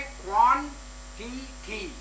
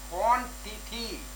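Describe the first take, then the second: First: quantity split into क्वां, टि, टी; syllable by syllable. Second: Said in the usual way. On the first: Shown as a demonstration. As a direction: pause between the three parts of quantity. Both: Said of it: "यहाँ पर एक syllable ये है".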